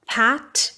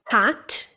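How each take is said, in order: Both takes have the same delivery.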